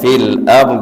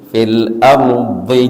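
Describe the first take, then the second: First: The last word ends on a bare consonant. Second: The last word ends with a short vowel. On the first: The reciter stops after this word. "dimatikan baknya" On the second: The reciter continues without stopping. "kalau disambung"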